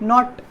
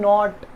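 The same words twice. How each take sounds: First: The vowel is short. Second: The vowel is drawn out long. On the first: The speaker calls it right. "this is short vowel" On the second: The speaker calls it wrong. "You don't say"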